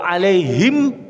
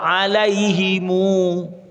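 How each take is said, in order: First: The word ends on a closed m sound. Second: The word ends with an added u vowel. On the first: "Kalau alaihim belum puas"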